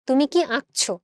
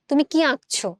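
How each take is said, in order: No difference in how they are said.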